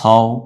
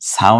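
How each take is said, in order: First: The vowel after s is a rounded o. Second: The vowel after s is an open aa. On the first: The speaker calls it right. "আকার উচ্চারিত না হয়ে একক উচ্চারিত হয়ে যায়" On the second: The speaker calls it wrong. "সাও না হয়ে"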